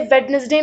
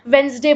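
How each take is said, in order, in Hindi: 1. बीच का d sound बोला जाता है। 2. बीच का d साउंड साइलेंट है। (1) "इसे वेडनेसडे नहीं बोला जाता" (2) "इसको हम वेंसडे बोलते हैं"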